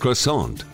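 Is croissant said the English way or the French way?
English. The word is said with an English pronunciation.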